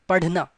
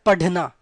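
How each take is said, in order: First: The middle consonant has a slight r-like flap. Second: The middle consonant is a plain d sound. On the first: The speaker calls it right. "not dh, perfect dh sound, but little r sound comes" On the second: The speaker calls it wrong. "it's not padhna"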